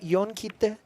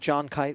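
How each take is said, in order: First: The name is said with a foreign pronunciation. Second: The name is said with an English pronunciation. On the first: "if you're pronouncing it authentically" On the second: "if you anglicize it"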